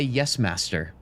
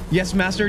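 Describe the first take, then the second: First: Alistair's murmur. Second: A lightly voiced eager house-elf, "Yes, master" pitched up a touch; bright servile "Yes, master" like a keen elf; eager Dobby. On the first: Retold or imitated. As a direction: mutter "Yes, master" like a resentful companion. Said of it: "he would say". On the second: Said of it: "intimidating version of Dobby".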